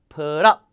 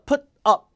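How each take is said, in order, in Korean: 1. 두 단어는 한 단어처럼 자연스럽게 이어서 발음해요. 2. 두 단어는 끊어서 따로 발음해요. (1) "한 단어로 붙여서 발음하고 강세는 뒤에" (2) "띄어서 put up 이것도 아니고"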